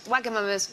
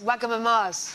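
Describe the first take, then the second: First: The name is said in a plain, ordinary way. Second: The name is said in a posh-sounding way. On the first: The speaker calls it right. "I accidentally called Wagamamas" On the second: The speaker calls it wrong. "the poshest thing I've ever done in my life"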